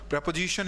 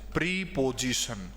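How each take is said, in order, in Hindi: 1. पहला स्वर छोटी 'e' ध्वनि है। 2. पहला स्वर लंबी 'ee' ध्वनि है। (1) "इसको बोला जाता है" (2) "बिल्कुल गलत प्रोनाउंसिएशन है"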